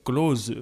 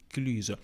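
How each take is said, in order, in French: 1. La voyelle est un son « o » ouvert. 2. La voyelle est un son « u » français arrondi. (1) "Parfois, euh, je dis euh, Close, mais non" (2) "je pense que c'est bien prononcé"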